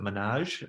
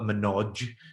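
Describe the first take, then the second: First: The word ends with a soft zh sound. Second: The word ends with a hard J sound. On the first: "the narrator calls it Menage" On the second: "with like a hard J at the end"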